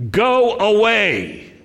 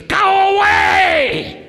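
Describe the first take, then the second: First: High, drawn-out yell; demoniac's cry. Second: Very high, loud, drawn-out shriek; demon-possessed scream. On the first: Demoniac crying out at the congregation's visitor, held-back high yell. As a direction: cry it out high, holding back from full volume. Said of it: "cries out at the top of his voice". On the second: Demon-possessed man interrupting Yeshua, long high scream. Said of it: "this demon-possessed person says". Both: Acted.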